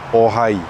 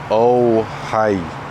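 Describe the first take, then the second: First: The o stays pure with the mouth unchanged. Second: The o closes and glides toward a w. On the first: The speaker calls it right. "make sure you keep your mouth in the same position before moving on" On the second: The speaker calls it wrong. "instead of ohai"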